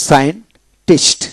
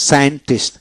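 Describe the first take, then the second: First: Slow scientist, split as sayen, pause, tist; syllable by syllable. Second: Said in the usual way. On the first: Shown as a demonstration. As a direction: break scientist in two for learners. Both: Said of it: "এইভাবে হবে".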